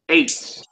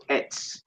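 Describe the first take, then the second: First: "Eitz" with a gliding "ay" vowel; long-vowel pronunciation. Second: "Etz" with a short "eh" and softer voice; short-vowel variant. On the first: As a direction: say "Eitz" to rhyme with "eights". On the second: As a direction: say "Etz" softly to rhyme with "gets". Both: Shown as a demonstration. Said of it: "I'm say Etz".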